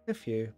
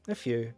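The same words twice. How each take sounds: First: It is said so that it sounds like few. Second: The same.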